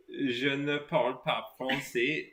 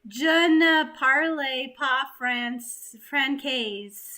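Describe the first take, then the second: First: Swedish-accented French. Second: Hammed-up American accent on "Je ne parle pas France"; a mock tourist mangling "Je ne parle pas France"; overdone bad French. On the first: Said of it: "say something in French with that accent". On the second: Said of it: "that was a bit too much". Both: Shown as a demonstration.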